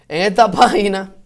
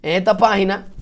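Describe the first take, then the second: No difference in how they are said.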